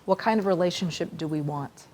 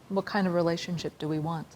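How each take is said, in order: Both takes have the same delivery.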